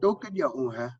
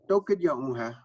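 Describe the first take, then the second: First: Toh kadya un hai starting high and dropping down; high then drops. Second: Toka diyo uha blended quickly, syllables merged; run together. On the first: Teacher shows the question tune, starting high and falling. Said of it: "it starts high and it drops down". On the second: Teacher shows the relaxed merged form, run together. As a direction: Toka diyo, uha said fast as one flow. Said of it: "like that". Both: Shown as a demonstration.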